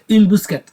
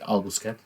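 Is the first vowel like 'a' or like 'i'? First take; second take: i; a. First: It is said with an Arabic-accented 'i' vowel. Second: It is said with a Catalan 'a' vowel.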